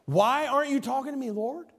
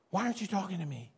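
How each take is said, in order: First: Said in the usual way. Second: Much softer, quicker, almost breathed-out plea to God; hushed plea. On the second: Shown as a demonstration. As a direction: drop to a private murmur as if praying alone. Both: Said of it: "repeated plea contrasted".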